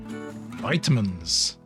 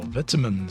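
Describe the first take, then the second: First: It is said with a North American pronunciation. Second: It is said with a British pronunciation. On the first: The speaker calls it wrong. "I shouldn't be saying that. It's my wife beating North Americanisms into me" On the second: The speaker calls it right. "Or vitamins, sorry. I'm British"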